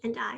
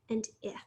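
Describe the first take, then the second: First: The vowel is said as its long letter name. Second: The vowel is said as a short sound.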